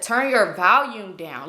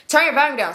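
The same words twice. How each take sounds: First: Drawn-out words, each one weighted; slow, emphatic order. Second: Said in the usual way. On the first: Retold or imitated. Woman warning friend about noisy phone, slowly and pointedly. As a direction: spell out the instruction very slowly.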